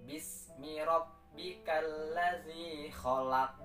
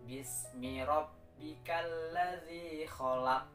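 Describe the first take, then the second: The two takes are said the same way.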